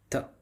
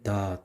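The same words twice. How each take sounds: First: The t is released with a light puff of air. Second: The t is released with no puff of air. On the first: "le T arabe euh, raqiq, c'est-à-dire euh, non emphatisé" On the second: "Et en français"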